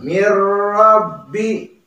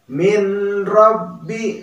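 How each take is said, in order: First: The n merges fully into a doubled r. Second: A separate n is sounded before the r. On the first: The speaker calls it right. "Jadi dibacanya mirrabbi" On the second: The speaker calls it wrong. "Jangan malah dibaca min rabbi. Nah, itu salah ya"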